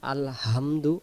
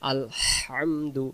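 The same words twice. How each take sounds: First: The h is a plain, light h sound. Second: The h is a breathy sound from the throat. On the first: The speaker calls it wrong. "তখন এই হা বাদ চলে গিয়ে এই হা যে আছে" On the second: The speaker calls it right. "গলা থেকে শুশু করে আওয়াজ বেরোবে"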